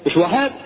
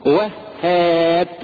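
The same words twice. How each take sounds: First: Short "وهاب" with a single h and rising end; "وهاب" without doubling the h; wrong pronunciation. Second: Very slow "وهاب" in two parts, "wah... haab"; drawn-out, lower "وهاب" with a long ending; correct pronunciation. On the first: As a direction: throw away "وهاب" as quick "wahaab". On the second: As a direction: pull "وهاب" apart on the doubled h. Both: Shown as a demonstration.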